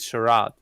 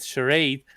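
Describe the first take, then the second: First: It is said with a British pronunciation. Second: It is said with an American pronunciation. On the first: "the British pronounce it charade" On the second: "the Americans pronounce it charade"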